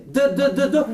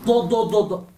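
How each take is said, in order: First: "D, d, d" as light repeated dental d; soft D. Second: "do, do, do" with heavy backed d; emphatic D. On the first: Teacher asking students to notice the difference, soft repeated "d". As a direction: tap out a soft "d". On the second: Teacher asking students to notice the difference, emphatic repeated "do". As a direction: thud out a dark "do". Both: Shown as a demonstration. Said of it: "¿Podéis notar la diferencia?".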